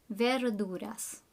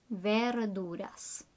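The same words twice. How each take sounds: Both takes have the same delivery.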